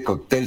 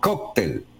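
First: The stress is on the last syllable. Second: The stress is on the first syllable. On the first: "no dice cóctel" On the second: "con acento y tilde en la O"

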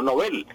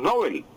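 First: The stress follows the Swedish original. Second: The stress follows the old Spanish habit. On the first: The speaker calls it right. "sino Nobel. Así se pronuncia el sueco" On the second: The speaker calls it wrong. "Decíamos Nobel, y resulta que no es Nobel"

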